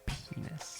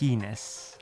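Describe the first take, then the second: First: It is said quietly. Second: It is said loudly.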